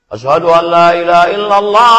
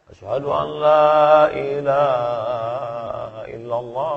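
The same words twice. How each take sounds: First: It is said loudly. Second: It is said softly.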